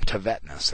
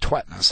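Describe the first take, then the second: First: The name is said with three syllables. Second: The name is said with two syllables. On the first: This is how the speaker habitually says it. "I've always called him Tevetness" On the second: This is how the name's owner says it. "He says to pronounce it Twetness"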